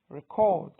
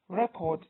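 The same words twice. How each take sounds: First: The stress is on the second syllable. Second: The stress is on the first syllable. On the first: It is used as a verb. "is a verb" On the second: It is used as a noun. "is a noun"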